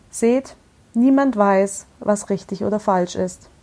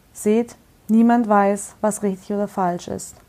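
Both takes have the same delivery.

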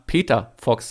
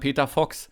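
First: The word Peter carries strong stress. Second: The word Fox carries the stress. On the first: "Auf den [name], oder?" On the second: "Ich und alle anderen sagen Peter Fox"

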